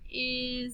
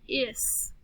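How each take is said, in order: First: The word ends with a buzzing z sound. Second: The word ends with a hissing s sound. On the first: The speaker calls it right. "sometimes the S at the end says Z" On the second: The speaker calls it wrong. "if we blend this, it would be is. Is isn't a word"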